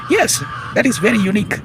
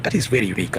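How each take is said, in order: First: Much higher and louder, triumphant answer; emphatic exclamation. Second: Said in the usual way. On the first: Real, not acted. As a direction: cry it out as if proving the point. Rhetorical question then emphatic answer.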